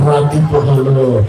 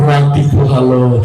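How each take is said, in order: First: It is said in a menacing, frightening way. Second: The same.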